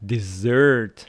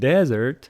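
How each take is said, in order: First: The stress is on the second syllable. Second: The stress is on the first syllable. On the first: Something sweet you eat. "stress on the second syllable" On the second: A hot, dry place like the Sahara. "Desert on the first syllable"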